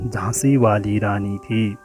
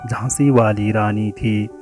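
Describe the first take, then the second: No difference in how they are said.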